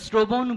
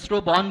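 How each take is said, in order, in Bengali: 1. শব্দাংশগুলো 'ও' ধ্বনি দিয়ে শেষ করে বলা হয়। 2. শব্দাংশগুলো শেষে 'ও' ধ্বনি ছাড়া বলা হয়। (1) "আমরা শ্রবণ বলি" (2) "আমরা শ্রবণ বলি না"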